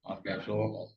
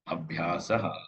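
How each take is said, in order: First: Said Bengali-style, ending in an 'o' sound. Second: Said without Bengali style, ending in an 'a' sound.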